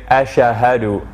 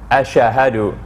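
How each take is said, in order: No difference in how they are said.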